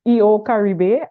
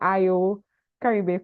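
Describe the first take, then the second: First: The name begins with an 'ee' sound. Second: The name begins with an 'eye' sound. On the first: The speaker calls it right. "today I finally learned how to pronounce" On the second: The speaker calls it wrong. "I've been saying I O Caribe for the longest while"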